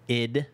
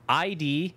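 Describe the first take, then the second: First: It is spoken as a single short word. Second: It is spoken as two separate letters. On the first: "or is it id or I D?" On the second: "or is it id or I D?"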